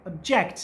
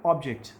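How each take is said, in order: First: "object" with a reduced first vowel and punched जेक्ट; stress on second syllable. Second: "object" with a full, stressed ऑब and falling जेक्ट; stress on first syllable. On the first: Teacher showing the courtroom verb, "object" stressed on जेक्ट. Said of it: "तो आप ज पे stress दे रहे हैं". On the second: Teacher showing the noun for a thing, "object" stressed on ऑब. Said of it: "चीज़ की स-, sense में जो आप यूज़ करेंगे". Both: Shown as a demonstration.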